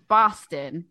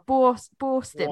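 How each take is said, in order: First: The first vowel is a broad 'ah'. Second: The first vowel is not a broad 'ah'. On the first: This is how locals actually say it. The speaker calls it right. "it's like A-H" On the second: This is how outsiders imitate the local accent. The speaker calls it wrong. "I think over here everyone goes"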